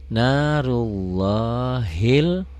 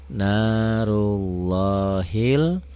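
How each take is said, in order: No difference in how they are said.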